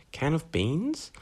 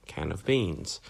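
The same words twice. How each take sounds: First: "Can of beans" rising high at the end; questioning intonation. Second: Said in the usual way. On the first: Shown as a demonstration. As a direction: turn "Can of beans" into a question with a steep rise on beans. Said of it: "suddenly that becomes a question". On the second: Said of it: "when I was talking about intonation".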